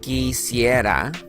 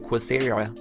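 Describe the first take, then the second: First: The word begins with a plain k sound. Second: The word begins with a kw sound. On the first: The speaker calls it right. "That's a K sound right there" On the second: The speaker calls it wrong. "don't say quisiera"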